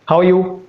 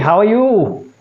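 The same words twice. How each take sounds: First: The pitch stays level from start to end. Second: The pitch starts low and rises at the end. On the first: The speaker sounds neutral. The speaker calls it right. "Neutral is like this. ... starting at the same pitch and ending at the same pitch" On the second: The speaker sounds submissive. The speaker calls it wrong. "And submissive is going up"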